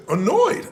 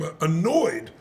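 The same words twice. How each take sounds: First: "Annoyed?" thrown back high, as a question; incredulous echo of "Annoyed?", pitch rising; annoyed disbelief. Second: Said in the usual way. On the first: Retold or imitated. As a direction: query "Annoyed?" as if the word is absurd. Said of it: "the word annoyed annoyed me". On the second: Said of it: "I'm hearing him say".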